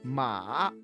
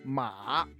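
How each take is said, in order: No difference in how they are said.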